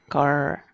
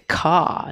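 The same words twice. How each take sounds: First: American accent, with a retroflex R at the end. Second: British accent, with no R sound at the end.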